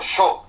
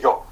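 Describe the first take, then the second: First: The word begins with a 'sh' sound. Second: The word begins with a 'y' sound. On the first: The speaker uses an Argentine variety. "a la argentina en diciendo yo" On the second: The speaker uses a general variety. "en lugar de yo"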